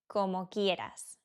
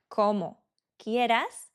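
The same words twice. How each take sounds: First: The two words are run together. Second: The two words are said separately. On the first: "we say it all together" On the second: "instead of saying the words like como quieras"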